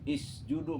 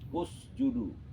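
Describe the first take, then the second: First: The word begins with an i vowel. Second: The word begins with a u vowel. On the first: The speaker calls it wrong. "nggak boleh baca isjudu" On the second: The speaker calls it right. "maka alif dibaca u"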